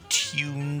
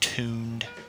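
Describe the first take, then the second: First: The word is carefully and precisely enunciated. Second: The word is said in a plain, ordinary way. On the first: The speaker sounds classy and refined. "I have diction. I have enunciation" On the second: The speaker sounds ordinary. "instead of just tuned"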